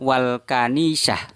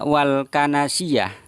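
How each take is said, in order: First: The last word is said as kanisah. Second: The last word is said as kanasiyah. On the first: The speaker calls it right. "Padahal yang benar itu adalah wal kanisah" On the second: The speaker calls it wrong. "beliau Gus Miftah membaca wal kanasiyah"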